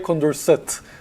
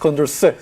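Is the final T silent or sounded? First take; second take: sounded; silent. First: The final T is pronounced. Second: The final T is silent. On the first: The speaker calls it wrong. "Don't say Condorcet" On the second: The speaker calls it right. "so you don't pronounce the T"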